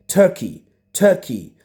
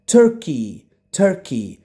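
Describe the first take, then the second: No difference in how they are said.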